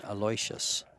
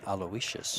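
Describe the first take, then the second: First: Aloysius said as "a-LOY-shus"; three-syllable Aloysius, a-LOY-shus; own pronunciation of Aloysius. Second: Aloysius said as "al-oh-WISH-us"; the other Aloysius, al-oh-WISH-us; corrected pronunciation of Aloysius. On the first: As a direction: say Aloysius with "LOY" as the stressed middle. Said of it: "got a little flack for saying". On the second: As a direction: say Aloysius in four syllables, "WISH" stressed. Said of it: "People keep telling me that". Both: Shown as a demonstration.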